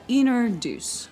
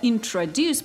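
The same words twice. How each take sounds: First: The t after the n is dropped entirely. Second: The t after the n is clearly pronounced. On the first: "получается introduce" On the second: "Вместо introduce"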